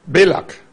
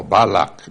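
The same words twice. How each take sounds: First: Balak with first syllable as "bay"; first pronunciation variant. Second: Balak with an open "ba" first syllable; second pronunciation variant. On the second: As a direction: say Balak as BAH-lak. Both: Shown as a demonstration. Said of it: "how you want to pronounce".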